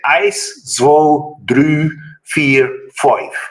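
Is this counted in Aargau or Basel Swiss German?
Aargau. It is counted in the Aargau Swiss German dialect.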